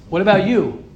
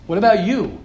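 Both takes have the same delivery.

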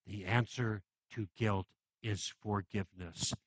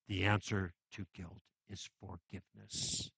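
First: Slow soft repeat. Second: Hushed first delivery. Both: Real, not acted. Repeats the sermon's key line.

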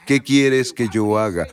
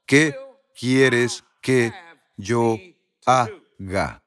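First: "qué quieres que yo haga" slowly, in one run; measured, unbroken question falling at the end of "haga"; connected phrase. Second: "qué... quieres que... yo... haga", broken by deliberate pauses; word-by-word emphasis. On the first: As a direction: stress "qué", then carry on to "haga" without pauses. Same question repeated as one phrase. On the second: Preacher spells out key question. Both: Retold or imitated.

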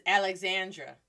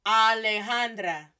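First: "Alexandra" with English x and apple a; English pronunciation. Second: "Alejandra" slow, with open ah and h-sounded j; Spanish pronunciation. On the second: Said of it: "versus Alexandra". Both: Shown as a demonstration.

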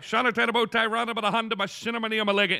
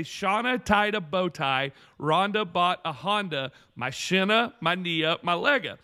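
First: Higher, run-together recitation; practicing the saying. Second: Teaching a saying. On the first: Boyfriend rehearsing fake tongues, hurried recitation. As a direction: rattle it off like reading from a note. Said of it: "So she wrote it down". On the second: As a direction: spell it out phrase by phrase. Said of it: "I have this little saying". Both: Retold or imitated.

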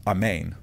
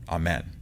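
First: AMEN pronounced slowly as "ah-MAYN". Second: AMEN pronounced slowly and softer as "ah-MEN". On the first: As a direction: say AMEN with a long "ay" in the second syllable. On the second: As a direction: say AMEN with a short "e" in the second syllable. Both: Shown as a demonstration. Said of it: "It's amen, or amen".

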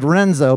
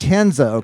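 First: Said in the usual way. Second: "Renzo" said with an initial H, like HEN-zo; Brazilian-style "Renzo", the R turned into H; Portuguese H sound. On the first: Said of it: "it's spelled Renzo". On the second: Shown as a demonstration. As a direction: open "Renzo" on a breathy H instead of R. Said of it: "it has the, uh, the H sound".

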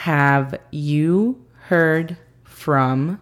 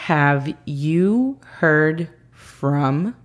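First: Very slow careful English repeat; slow repeat for learners. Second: Very slow careful English demo; teacher model, very slow; slow model phrase. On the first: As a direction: say it again slowly and clearly. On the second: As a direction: stretch every word for learners. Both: Shown as a demonstration. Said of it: "La segunda frase del día es".

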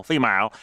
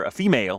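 First: "female" said as FEE-mile; accented "female". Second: Said in the usual way. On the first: Shown as a demonstration. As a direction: bend the end of "female" to rhyme with mile. Toys with accented form of word.

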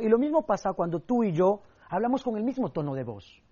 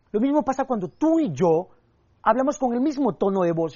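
First: Said in the usual way. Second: Lifted, with a pause after tú; varied delivery. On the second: Shown as a demonstration. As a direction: rise on tú, then stress on mismo. (cambiando el tono: sube en tú, pausa y acento en mismo) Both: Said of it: "Es como poner la misma canción".

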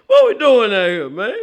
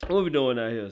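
First: Exasperated loud call. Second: Said in the usual way. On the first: Real, not acted. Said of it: "repeats it quieter". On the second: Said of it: "repeat after loud version".

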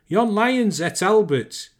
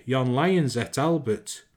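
First: High, loud, drawn-out Lancashire holler. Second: Said in the usual way. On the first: A narrator's reading. Mother who saw the lion swallow her son, hollering. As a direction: holler it out slowly, pitched right up. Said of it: "she hollered". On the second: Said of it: "Ma said".

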